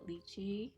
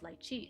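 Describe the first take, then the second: First: The word is said the Mandarin and English way. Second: The word is said the Cantonese way. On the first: "most Mandarin speakers do pronounce it lychee, um, like in English" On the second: "but in Cantonese it's it's lychee"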